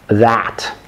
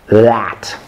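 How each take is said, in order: Both takes have the same delivery.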